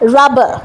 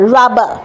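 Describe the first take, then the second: No difference in how they are said.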